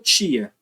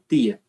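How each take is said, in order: First: The t sounds like ch before the i. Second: The t is a plain t sound. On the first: This is the speaker's own variety. "eu falo tia" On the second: This is how speakers of another variety say it. "tem gente que fala tia"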